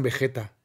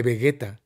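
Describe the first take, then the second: First: Vegeta said be-JE-ta, the form to avoid; Spanish J sound. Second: Vegeta said be-GUE-ta; hard G. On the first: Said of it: "no le digan Vegeta". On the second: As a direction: give Vegeta a hard g as in "guerra". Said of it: "Díganle Vegeta". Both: Shown as a demonstration.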